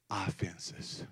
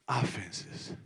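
First: Breathy hush on "Offenses."; dramatic whisper; whispered point. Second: Said in the usual way. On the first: Acted. Giving the point to write down.

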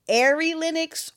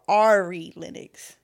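First: "Ari" said AIR-ee, first vowel as in air; AIR-ee pronunciation. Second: "Ari" said AR-ee, first vowel as in car; AR-ee pronunciation. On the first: Host asks cohost which name is right, AIR-ee pronunciation of "Ari". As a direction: say "Ari" to rhyme with "fairy". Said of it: "you got me thinking I'm saying it wrong. Is it". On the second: Host offers cohost the other option, AR-ee pronunciation of "Ari". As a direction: open "ah" at the start of "Ari". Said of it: "Is it". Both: Shown as a demonstration.

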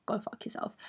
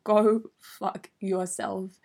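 First: Quiet, under-the-breath brush-off; muttered dismissal. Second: Very slow, each word spaced out; drawn-out dismissal. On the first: Telling the boy off in her head, quiet muttered dismissal. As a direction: toss it away very softly. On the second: Big man telling the boy off, drawn-out dismissal. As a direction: stretch out the brush-off. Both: Retold or imitated.

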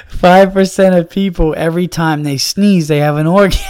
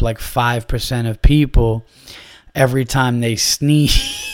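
First: Words pushed out through real laughter; barely holding it together, laughing; laughing while talking. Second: Said in the usual way. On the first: Real, not acted. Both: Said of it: "I'm crying of laughter".

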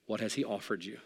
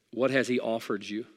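First: The same question again, much softer; quiet repeat. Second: Said in the usual way. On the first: Shown as a demonstration. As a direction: drop it down and let it land softly.

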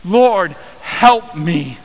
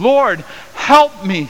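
First: Loud, high cry to the Lord; pleading prayer. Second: High, loud and slow, begging; desperate plea. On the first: Woman praying before Jesus, a loud high pleading cry. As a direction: beg from your knees. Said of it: "posture of prayer". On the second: Kneeling woman to Jesus, a high loud slow desperate plea. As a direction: cry out for help, drawn out. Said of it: "she said". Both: Acted.

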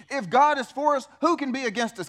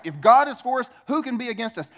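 First: Said in the usual way. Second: Louder, punching the word God; excited proclamation. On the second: Acted. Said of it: "we should be excited about that".

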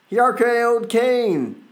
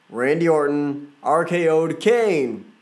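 First: R K O'd Kane pitched way up, slower; excited. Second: Said in the usual way. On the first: Real, not acted. Wrestling fan repeating the RKO to his viewers, excited. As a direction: hype the RKO.

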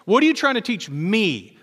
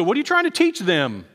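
First: Earnest question leaning on "me"; stress on ME. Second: "them" punched, pointing at other people; high-pitched question landing on "them"; stress on THEM. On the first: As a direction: land firmly on "me", asking it of yourself. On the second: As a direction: push the blame outward on "them". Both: Acted. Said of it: "We always go".

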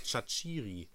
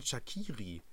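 First: Shaqiri said "Shatschiri", with a ch in the middle; player's own pronunciation. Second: Shaqiri said "Schakiri", with a hard k; everyone's pronunciation. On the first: Host quoting the player's interview, Shaqiri as "Shatschiri". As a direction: say Shaqiri as sha-CHEE-ree. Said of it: "und er hat gesagt". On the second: Host showing what everyone calls him, Shaqiri with a k. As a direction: say Shaqiri as sha-KEE-ree. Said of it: "alle nennen ihn". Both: Shown as a demonstration.

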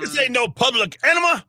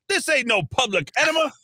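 First: Much higher, put-on voice quoting a movie; quoting a movie line. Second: Much higher mock shout of the film line; quoting a movie line. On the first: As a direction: screech it like the party movie guy. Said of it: "to quote the guy that screamed that". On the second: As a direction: bust into the party hollering it. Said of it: "He's like".

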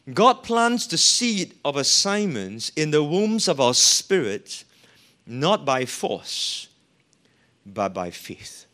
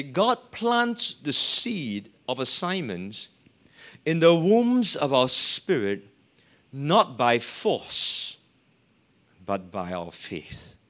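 First: Louder, punching the phrases; louder emphatic reread. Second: Slow, weighty, each phrase set apart; slow emphatic reading. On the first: Preacher rereading to congregation, louder and emphatic. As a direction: hit it harder the second time. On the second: Preacher to congregation, slow weighty quote. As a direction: lay down every phrase slowly. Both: Shown as a demonstration. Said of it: "Let me read this once more".

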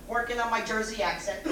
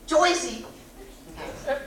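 First: Said in the usual way. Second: A quick burst of Jersey accent. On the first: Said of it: "Joycey accent". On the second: Shown as a demonstration. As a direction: say it like a New Jersey guy.

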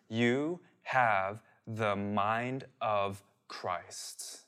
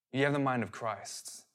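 First: Very slow and soft, word by word; hushed, solemn, long pauses between words; slow, deliberate emphasis. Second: Said in the usual way. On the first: Real, not acted. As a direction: let each word land separately, quietly. Driving home a scriptural truth.

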